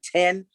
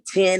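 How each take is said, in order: First: It is said with a standard vowel. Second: It is said with a Southern vowel.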